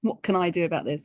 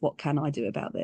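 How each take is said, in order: First: It is said in a desperate tone. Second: It is said as a calm, real question.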